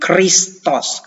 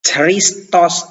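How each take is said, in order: First: The word starts with a raspy 'kh' sound. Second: The word starts with a plain 'ch' sound. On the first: The speaker calls it right. "tapi Christos, K H R I S T O S" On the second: The speaker calls it wrong. "kita tidak sebut Christos"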